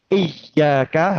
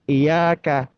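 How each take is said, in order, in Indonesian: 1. Bunyi y dibaca ganda dan ditekan. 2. Bunyi y dibaca tunggal dan ringan. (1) "Itu kalau pakai ya tasdid" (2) "ketika tidak dibaca tasdid untuk huruf ya-nya"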